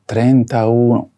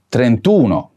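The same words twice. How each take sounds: First: Trentauno said slowly with every vowel kept, tren-ta-u-no; unshortened form, slow. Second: Said in the usual way. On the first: Shown as a demonstration. Teacher slowly showing learners the form before the vowel drops. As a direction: spell out trentauno slowly, keeping the final a of trenta before uno. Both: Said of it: "Drop the final vowel before adding one".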